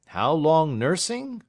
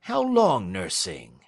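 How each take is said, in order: First: Higher, louder and slow, weighing the word; Snitchey mulls it over aloud, pitched up; Snitchey repeating. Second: Said in the usual way. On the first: Acted. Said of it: "repeated Snitchey".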